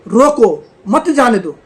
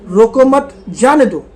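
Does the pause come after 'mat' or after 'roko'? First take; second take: after roko; after mat. First: The pause comes after 'roko'. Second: The pause comes after 'mat'.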